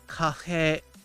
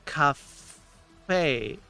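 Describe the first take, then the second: First: The middle consonant is between an H and F. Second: The middle consonant is a clear F sound. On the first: The speaker calls it right. "technically the sound is more like cafe" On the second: The speaker calls it wrong. "I pronounced it cafe"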